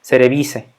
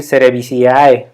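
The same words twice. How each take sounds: First: Cerevice, slow, ending in a plain "se"; silent-A pronunciation. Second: Cerevisiae with every final vowel sounded, "se-re-bi-si-A-E"; spelled-out pronunciation. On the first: Teacher applying the Latin rule, cerevice with the A left silent. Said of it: "la A no se pronuncia". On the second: Teacher showing what sounds odd, cerevisiae ending in a full "i-a-e". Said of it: "se oye medio raro o". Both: Shown as a demonstration.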